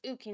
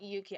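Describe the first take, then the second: First: The name starts directly with an 'oo' vowel. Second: The name starts with a 'y' sound. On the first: The speaker calls it right. "I think it's it's Uki" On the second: The speaker calls it wrong. "not Yuki"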